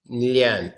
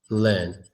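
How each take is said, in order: First: A 'y' glide comes before the vowel. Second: The vowel is one sound with no glide. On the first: The speaker calls it wrong. "Don't do the yeah sound on the E like lian" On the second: The speaker calls it right. "It's just learn"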